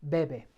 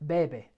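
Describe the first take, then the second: Both takes have the same delivery.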